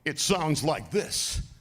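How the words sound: It is said in a heightened, dramatic way. "when I'm doing Lionel, ... It's a little more dramatic"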